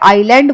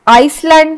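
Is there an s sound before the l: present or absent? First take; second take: absent; present. First: No s sound is heard before the l. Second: An s sound is heard before the l. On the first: The speaker calls it right. "आईलैंड बोलते हैं हम" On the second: The speaker calls it wrong. "फिर आइसलैंड नहीं बोलते"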